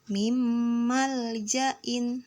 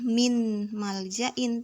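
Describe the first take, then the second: First: The n sound merges into the following m. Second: The n sound is pronounced clearly before m. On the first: The speaker calls it right. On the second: The speaker calls it wrong. "membacanya bukan"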